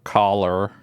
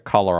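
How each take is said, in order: First: It is said in a fake American accent. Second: It is said in an Australian accent. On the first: "I'll be like collar or some shit like that. I'll do the er" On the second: "if I say color"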